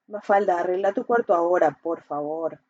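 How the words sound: It sounds calm and sincere.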